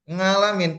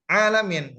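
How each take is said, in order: First: The word starts with an ng sound. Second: The word starts with an ain sound. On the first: The speaker calls it wrong. "membacanya Robbil ngalamin dengan ikhfa" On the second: The speaker calls it right. "Padahal yang benar adalah alamin"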